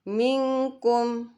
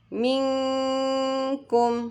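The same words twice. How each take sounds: First: The nasal 'ng' sound is cut short. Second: The nasal 'ng' sound is held for two beats. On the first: The speaker calls it wrong. "bacaan yang salah seperti ini. ... walaupun kita sudah samarkan tetapi belum ditahan" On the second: The speaker calls it right. "kita samarkan nun sukunnya menjadi eng ke huruf kaf dan didengungkan terus ditahan selama dua harokat"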